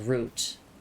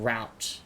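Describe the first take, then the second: First: It is said the non-American way. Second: It is said the American way. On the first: "technically, I should be saying it as route" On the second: "I'm so used to hearing route because, like, everyone online is American"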